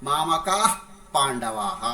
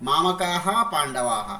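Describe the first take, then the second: No difference in how they are said.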